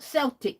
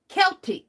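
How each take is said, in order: First: The word begins with a soft S sound. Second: The word begins with a hard K sound. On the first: The speaker calls it wrong. "not Celtic" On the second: The speaker calls it right. "K E L T I C"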